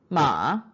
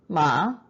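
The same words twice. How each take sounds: First: The pitch dips low, then rises. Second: The pitch rises from mid to high.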